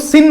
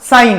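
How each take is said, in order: First: The vowel is a short 'i' sound. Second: The vowel is a gliding 'ai' sound. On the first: The speaker calls it wrong. "अब इसको सिन मत पढ़ना" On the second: The speaker calls it right. "Pronounce हम इसको सिर्फ साइन करते हैं"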